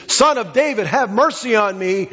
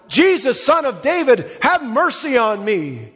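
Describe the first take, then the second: First: Raised-pitch plea, mildly called out; imitated crying out. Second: High, insistent imitated plea; louder crying out. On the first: Blind beggar calling to Jesus on the road, imitated plea. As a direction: call out for mercy without full force. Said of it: "began to cry out to Jesus". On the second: Blind beggar refusing to be silenced, calling out more insistently. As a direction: call it out higher, drawing out the plea for mercy. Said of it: "He cried out all the louder".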